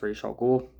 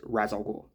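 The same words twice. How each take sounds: First: Ra's ending in a sh sound; animated-series pronunciation. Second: Ra's rhyming with "jazz"; Arabic-style pronunciation. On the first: Reviewer recalling the cartoon's way of saying it, Ra's said "raysh". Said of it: "it is pronounced". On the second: Reviewer showing what he believes is the Arabic way, Ra's said "raz". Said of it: "I believe the Arabic way is". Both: Shown as a demonstration.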